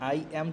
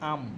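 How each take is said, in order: First: It is said as two separate words. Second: It is said as one contracted syllable.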